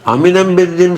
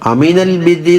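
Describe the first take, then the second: First: The article is said with an M sound. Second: The article is said with an L sound. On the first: It follows a Yemeni dialect. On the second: It is the standard form.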